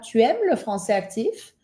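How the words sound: The voice rises at the end. It is a question. "como es una pregunta / tengo que hacer subir mi voz al final"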